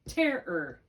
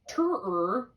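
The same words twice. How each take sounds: First: The first vowel is a short e. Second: The first vowel is an 'er' sound. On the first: The speaker calls it right. "Now it's just a vowel and a, in a closed syllable. So now it's just terror" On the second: The speaker calls it wrong. "It's not terror. We don't say terror"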